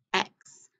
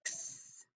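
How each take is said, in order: First: Said in the usual way. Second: "X" said as the bare ks sound, whispered, no vowel; voiceless "X" sound, very soft. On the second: Shown as a demonstration.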